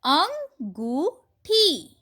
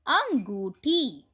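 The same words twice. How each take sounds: First: अंगूठी stretched very slowly and higher; slow drawn reading. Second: Said in the usual way. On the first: Shown as a demonstration. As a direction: draw out अंगूठी syllable by syllable. (अंगूठी को बहुत धीरे खींचकर पढ़िए) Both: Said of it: "चंद्र बिंदु से बने कुछ शब्दों".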